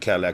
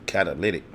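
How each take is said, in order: First: The word sounds like the car name Cadillac. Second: The word is said with all its syllables. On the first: The speaker calls it wrong. "how we can mispronounce certain words" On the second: The speaker calls it right. "I try to tell cuz the catalytic"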